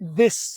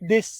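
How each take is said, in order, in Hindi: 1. 'th' हवा वाली आवाज़ है, जीभ पर दांत रखकर हवा निकलती है। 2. 'th' एक रुकी हुई आवाज़ है, जीभ तालू पर लगती है। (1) "जुबान के ऊपर मैंने दांत रख लिए और पीछे से मैं हवा देता हूं" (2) "जुबान को तालु के साथ लगाते हैं"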